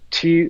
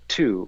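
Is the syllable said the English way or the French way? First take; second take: French; English. First: The syllable is said with a French vowel. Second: The syllable is said with an English vowel. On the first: The speaker calls it right. "the French pronunciation of tu and q" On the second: The speaker calls it wrong. "if I'm tonguing in a traditional way"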